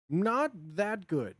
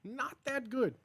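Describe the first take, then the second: First: Said in the usual way. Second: Pitched-up demo. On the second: Shown as a demonstration.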